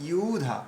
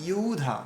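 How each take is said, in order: The two takes are said the same way.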